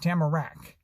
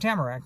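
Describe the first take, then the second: First: The stress is on the last syllable. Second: The stress is on the first syllable. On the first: The speaker calls it right. "the emphasis was on the third syllables, on rack" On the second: The speaker calls it wrong. "he didn't want to be didn't want to be Tamarack"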